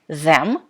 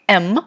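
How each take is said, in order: First: The word is said in full with 'th'. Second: The word is reduced to just 'm'. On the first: The speaker calls it wrong. "you pronounce it not like them" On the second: The speaker calls it right. "but like M"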